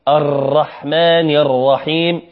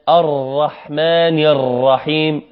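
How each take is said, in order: Both takes have the same delivery.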